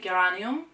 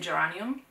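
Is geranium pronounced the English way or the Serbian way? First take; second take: Serbian; English. First: The word is pronounced the Serbian way. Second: The word is pronounced the English way. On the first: "In Serbian we would say geranium" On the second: "in English we would say geranium"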